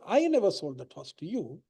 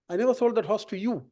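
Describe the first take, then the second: First: The word 'I' carries the main stress. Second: The word 'you' carries the main stress. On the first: Someone else sold the horse. "I'm saying it wasn't me, it was somebody else" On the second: The horse went to another buyer. "I sold it to somebody else"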